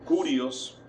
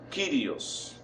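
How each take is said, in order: First: The first vowel sounds like 'oo'. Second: The first vowel sounds like 'ee'. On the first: The speaker calls it wrong. "hay algunos que lo pronuncian como Curios" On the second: The speaker calls it right. "se lee como I, como la I eh, griega"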